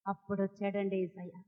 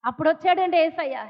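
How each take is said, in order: First: Low, very soft reveal; hushed. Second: Said in the usual way. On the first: Real, not acted. Preacher reveals to congregation that Jesus then arrived, hushed. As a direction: drop right down, almost under the breath.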